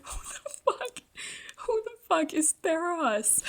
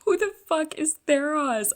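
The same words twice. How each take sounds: First: Squeaky, much higher mock-confused squeal; mock disbelief. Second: Loud, higher incredulous outburst; baffled outburst. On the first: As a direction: replay her own baffled reading, cartoonish. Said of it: "I was like". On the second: Real, not acted. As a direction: blurt it out in disbelief. Her baffled reaction to reveal.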